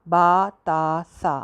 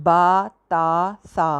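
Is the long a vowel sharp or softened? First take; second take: sharp; sharp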